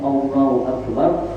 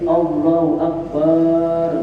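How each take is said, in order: First: The vowel after the b is short. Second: The vowel after the b is drawn out. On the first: The speaker calls it right. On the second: The speaker calls it wrong. "ada yang baca akbarnya ba-nya dipanjangin"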